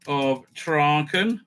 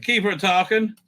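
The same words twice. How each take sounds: First: Traken traag en zorgvuldig herhaald, tra-ken; corrected slowly. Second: Tarkin gezegd als tar-kin, de naam fout; mispronounced Tarkin. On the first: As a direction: verbeter jezelf en zeg langzaam Traken. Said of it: "Keeper of Tarkin". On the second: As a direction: zeg per ongeluk Tarkin in plaats van Traken. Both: Real, not acted.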